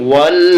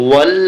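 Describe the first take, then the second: The two takes are said the same way.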